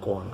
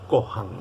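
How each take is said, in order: First: The a follows the o with no breath. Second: An h-like breath comes before the a. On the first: This is how the speaker always says it. "Yo digo koan" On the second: Some other people say it this way. "aspirando la A como si tuviese una H"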